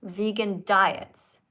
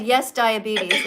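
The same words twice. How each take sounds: First: "Vegan diets" said very slowly and deliberately after a pause; careful correct reading. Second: Slow, loud imitation of the misread "Yes, diabetes" run together; parroting the caller's "Yes, diabetes" without the pause; mock misreading. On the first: Shown as a demonstration. Showing the caller the right reading, slow and careful. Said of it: "so you pause". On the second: Correcting a caller who misread the card, slow mock misreading. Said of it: "It doesn't say that".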